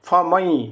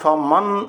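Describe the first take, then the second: First: The word ends in a y sound. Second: The word ends in an n sound. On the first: The speaker calls it right. "উচ্চারণ করতে হবে ফমাই" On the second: The speaker calls it wrong. "এখানে ফ মান উচ্চারণ করলে হবে না"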